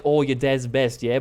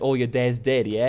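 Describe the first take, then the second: First: Mock Australian accent, BEST kept distinct from "dead"; imitated Australian accent. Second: Mock Australian accent, DEAD in place of "best"; misheard Australian accent. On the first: Customs guy chatting to tourists, imitated Australian accent. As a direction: mimic an Australian saying "best". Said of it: "very thick accent. Uh, like, Australian accent". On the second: Customs guy as tired cousins misheard him, imitated Australian accent. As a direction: mimic an Australian whose "best" comes out "dead". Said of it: "But with his accent, uh, we heard".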